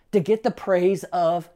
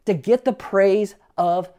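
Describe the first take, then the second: No difference in how they are said.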